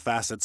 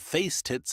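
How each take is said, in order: First: The first syllable sounds like 'mass'. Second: The first syllable sounds like 'face'. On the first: The speaker calls it right. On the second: The speaker calls it wrong.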